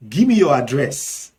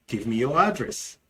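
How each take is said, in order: First: Nigerian Pidgin. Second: Said in the usual way. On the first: Shown as a demonstration. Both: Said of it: "in Nigerian Pidgin English".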